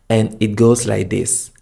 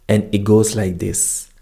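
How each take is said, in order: The two takes are said the same way.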